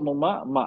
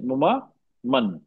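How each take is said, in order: First: The last word ends in a long vowel. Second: The last word ends with an n sound. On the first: The reader stops at this word. "रुक गया तो, हाँ तो रुक गया" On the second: The reading continues without stopping. "नहीं, मुमा मन हो जाएगा"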